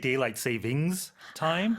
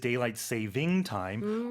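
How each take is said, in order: First: The word 'saving' ends with an s sound. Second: The word 'saving' ends without an s sound. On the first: The speaker calls it wrong. "a lot of native speakers incorrectly pronounce it" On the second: The speaker calls it right. "technically it is"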